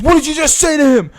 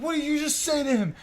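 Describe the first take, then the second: First: Loud, high mock confrontation; imitating an escalating demand, much louder; angry challenge. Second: High, strained demand without shouting; imitating a stuck, insistent aggressor; tense challenge. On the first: Stranger squaring up to the teller, loud angry challenge. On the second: Stranger repeating himself to the teller, high tense challenge.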